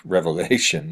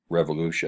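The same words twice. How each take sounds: First: Revelation said correctly after a small laugh; amused correction on Revelation; laughing self-correction. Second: Revolution said by mistake for Revelation, plain lecture voice; quick slip saying Revolution; slip of the tongue. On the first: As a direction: fix the slip with a chuckle, saying Revelation. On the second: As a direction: misread the book name as Revolution. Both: Real, not acted. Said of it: "not Revolution".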